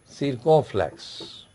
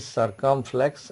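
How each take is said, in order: First: "circumflex" as French "seer-ko-flex"; French term. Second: "circumflex" as English "sur-kum-flex"; English term. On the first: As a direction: say "circumflex" slowly with an "ee" first vowel, no M. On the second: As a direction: say "circumflex" with an "er" first vowel and an M. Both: Shown as a demonstration. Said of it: "English is circumflex accent".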